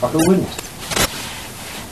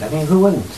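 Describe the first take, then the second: First: Slow breathy whisper of who wouldn't?; drawn-out whispered "who wouldn't?"; whispered aside. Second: Said in the usual way. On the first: Shown as a demonstration. Teacher posing "who wouldn't?" to class, slow whisper.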